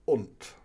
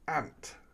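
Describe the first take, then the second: First: The vowel rhymes with the word shunt. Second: The vowel rhymes with the word shank. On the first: "that rhymes with shunt" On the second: "down south they say ant"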